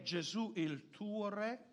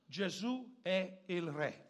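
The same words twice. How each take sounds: First: Slow question rising on "Re"; probing question. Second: Slow, deliberate statement falling on "Re"; emphatic statement. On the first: Preacher puts the second point to the congregation, probing question. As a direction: ask "Gesù il tuo Re?" slowly, lifting the end. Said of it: "La seconda cosa che vorrei dire è". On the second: Preacher declares the single theme of the service, emphatic statement. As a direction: state "Gesù è il Re" slowly, closing downward. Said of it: "un semplice solo tema". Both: Shown as a demonstration.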